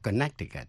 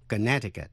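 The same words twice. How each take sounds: First: The middle C sound is pronounced. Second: The middle C sound is silent. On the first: The speaker calls it wrong. "chứ không đọc Connecticut" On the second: The speaker calls it right. "có chữ C ở giữa, câm"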